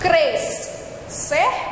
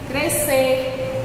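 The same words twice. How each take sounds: First: Both the S and the C are sounded. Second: Only one S sound is heard. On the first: The speaker calls it wrong. "Não falamos assim" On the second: The speaker calls it right. "vai puxar o som da letrinha S"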